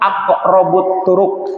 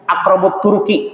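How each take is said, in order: First: The last word ends on a consonant. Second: The last word ends on an 'i' vowel. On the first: It sounds like a rude local word. The speaker calls it wrong. "Kalau di bahasa Cilacap, aqrabut turuk itu sesuatu yang maaf lah gitu ya" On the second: It names the nearest path to God. The speaker calls it right. "Tapi harus menyebutnya aqrabut turuki"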